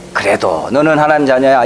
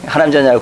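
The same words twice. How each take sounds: First: Gentle, consoling "너는" lightly stressed; comforting. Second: Abrupt, curt "하나님 자녀야" tossed off; blunt. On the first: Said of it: "이렇게 좀 위로를 해주십시오". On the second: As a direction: say it bluntly without care. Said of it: "대짜고짜 그냥 막". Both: Shown as a demonstration.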